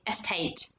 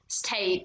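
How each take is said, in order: First: An e vowel is added before the st cluster. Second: The word starts directly with the st cluster. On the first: "they would say estate. They they literally add e in the beginning" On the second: "they would not say state"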